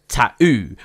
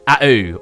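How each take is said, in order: First: The first T is pronounced, the middle one dropped. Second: Both T sounds are dropped completely. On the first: The speaker calls it right. "in London, a more Londoner accent or Southern accent, you might say tattoo" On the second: The speaker calls it wrong. "Americans seem to think you don't pronounce any T"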